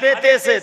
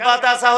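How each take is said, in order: First: The letter names end in an 'e' vowel. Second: The letter names end in an 'a' vowel. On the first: This is the older way of reading. "আগে ... কি বলে পড়তেন? আলিফ বে তে সে" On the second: This is the newer way of reading. "এখন কি বলে পড়ে?"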